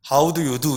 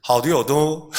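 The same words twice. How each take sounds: First: Said in the usual way. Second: Put-on How do you do in a choppy Chinese-accented English. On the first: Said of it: "영어를 하는데 중국말처럼". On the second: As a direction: mimic a Hong Kong speaker's English. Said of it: "완전히 중국 억양을 그대로".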